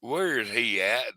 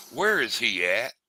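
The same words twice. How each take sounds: First: Slow, drawn-out Southern "Where is he at?"; Southern accent. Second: Slow Southern drawl on "Where is he at?"; lightly voiced Southern old-timer, slow; Southern accent. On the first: Retold or imitated. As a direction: imitate a Southern boss, slow. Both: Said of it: "Got the old Southern".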